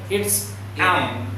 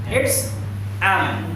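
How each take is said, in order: The two takes are said the same way.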